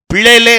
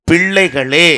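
First: பிள்ளைகளே high and loud, slurred as "pillele"; mispronounced word. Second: பிள்ளைகளே loud, with curled ள and a clear "ga"; correct pronunciation. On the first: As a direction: mimic the wrong பிள்ளைகளே loudly, without its "ga". (பிள்ளைகளே - உரக்க, தவறாக "பிலேலே") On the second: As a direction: correct it firmly to a full "pil-lai-ga-lay" in பிள்ளைகளே. (பிள்ளைகளே - உரக்க, திருத்தமான உச்சரிப்பு) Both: Shown as a demonstration. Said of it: "உச்சரிப்பை சரி பண்ண".

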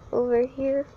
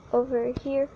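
The two takes are said the same way.

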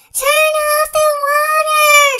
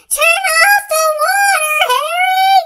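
First: Loud, high, drawn-out shout. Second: Even higher, louder shout with his name. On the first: Father soaked by the hose, shouting at Harry. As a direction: yell it slowly across the yard. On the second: Father still being squirted, shouting louder at Harry. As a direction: yell it at the top of the voice. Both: Acted. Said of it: "shouts Harry's father".

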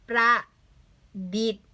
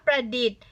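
First: ประ, long pause, ดิษฐ์; careful split reading of ประดิษฐ์; syllable-by-syllable reading. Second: Said in the usual way. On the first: Shown as a demonstration. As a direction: sound out ประดิษฐ์ as two separate beats. Teacher sounds out the word.

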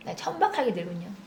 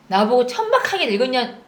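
First: Stunned murmur. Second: 천박하게 hit hard in disbelief; indignant stress. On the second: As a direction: lean on 천박하게, outraged. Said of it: "나 혈압 올라". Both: Real, not acted.

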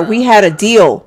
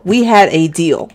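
First: Said in the usual way. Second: "We had a deal" spaced out slowly; slow down and weight each word of "We had a deal"; emphatic repeat. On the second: Acted. Little brother reminds Braylon of the deal, "We had a deal" slow and emphatic.

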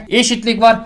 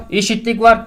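The two takes are said the same way.

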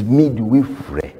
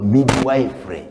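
First: "midwifery" with a short i, as mid-WIFF-ree; correct pronunciation. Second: "midwifery" said as mid-WIFE-ree; mispronunciation. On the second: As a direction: say midwifery with the word "wife" inside it. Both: Shown as a demonstration. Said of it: "African mispronunciation".

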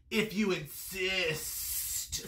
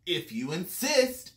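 First: Very slow, sibilant snake; long, drawn-out serpent reply. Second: Mildly sweet, unhurried reply; lightly voiced friendly ladybug; sweetly. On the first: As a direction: stretch the s like a snake. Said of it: "said the snake". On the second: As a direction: answer sweetly, taking your time. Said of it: "answered the friendly ladybug sweetly". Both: A narrator's reading.

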